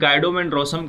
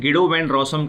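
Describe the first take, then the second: First: The first name begins with a 'guy' sound. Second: The first name begins with a 'gee' sound. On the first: "कुछ लोग इसे गाइडो van रॉसम कह के चल रहे होते हैं" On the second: "कुछ लोग इसे गिडो वैन रॉसम कह के चल रहे होते हैं"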